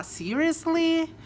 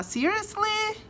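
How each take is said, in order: First: High, slow Seriously; appalled disbelief. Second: Very high shocked Seriously; indignant disbelief. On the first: Disagreeing with something horrible, slow appalled Seriously. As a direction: stretch it out, appalled. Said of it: "você não concorda, que coisa horrível". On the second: Reacting to something stupid, high indignant disbelief. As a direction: rise it up in outraged disbelief. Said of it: "se alguém diz, ah, alguma coisa estúpida". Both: Shown as a demonstration.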